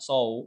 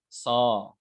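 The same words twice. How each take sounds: First: The vowel is closed, as in 'low'. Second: The vowel is open, as in 'law'. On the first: The speaker calls it wrong. "It's not saw not saw. That you are not moving your lips" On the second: The speaker calls it right. "So it's a law law saw law"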